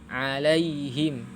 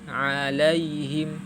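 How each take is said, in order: Both takes have the same delivery.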